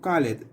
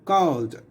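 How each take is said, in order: First: The ending is an extra syllable, like "id". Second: The ending is a plain d sound. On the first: The speaker calls it wrong. "No decimos call it" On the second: The speaker calls it right. "Like a d"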